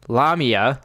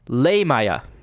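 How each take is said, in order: First: The name is said like 'La Mia'. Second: The name is not said like 'La Mia'. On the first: The speaker calls it wrong. "We may pronounce it Lamia, like La Mia" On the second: The speaker calls it right. "the actual pronunciation, because this is a Greek word"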